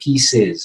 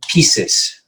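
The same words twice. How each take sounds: First: The final sound is a buzzing Z. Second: The final sound is a hissing S. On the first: The speaker calls it right. "It would be pieces of something" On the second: The speaker calls it wrong. "We would never say um, um, pieces"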